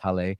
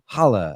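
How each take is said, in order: First: It is not said like challah. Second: It is said like the word challah. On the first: The speaker calls it right. "she corrected me. It's Halle" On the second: The speaker calls it wrong. "it comes out naturally like the bread we eat on Shabbat"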